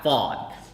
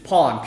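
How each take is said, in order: First: The name begins with an F sound. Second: The name begins with a P sound. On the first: The speaker calls it wrong. "My name is not Fawn" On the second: The speaker calls it right. "It's Pawn, P H O N"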